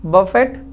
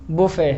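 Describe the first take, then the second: First: बफेट with 'buh' and a sounded final T; misread pronunciation. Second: बुफे as 'boo-fay', final T silent; silent-T pronunciation. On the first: Teacher testing students with a wrong reading, misread pronunciation. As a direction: say बफेट letter by letter, ending on a hard T. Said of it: "बफेट लिखा है ना?". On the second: Teacher correcting students' reading, silent-T pronunciation. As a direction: say बुफे ending on the vowel, no T. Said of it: "यानी silent है". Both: Shown as a demonstration.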